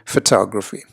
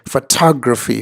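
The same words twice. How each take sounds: First: The sounds are relaxed and blended normally. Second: Each sound is drawn out and overemphasized. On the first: "a more general uh, sound" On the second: "you exaggerate some of these sounds"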